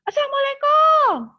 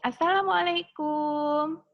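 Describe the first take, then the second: First: The greeting is shouted very loudly. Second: The greeting is said at a calm, normal volume. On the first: The visitor is being rude. The speaker calls it wrong. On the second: The visitor is being polite. The speaker calls it right.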